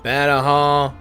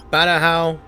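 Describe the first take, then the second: No difference in how they are said.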